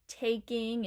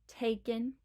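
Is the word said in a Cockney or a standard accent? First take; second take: standard; Cockney. First: It is said in a standard accent. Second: It is said in a Cockney accent.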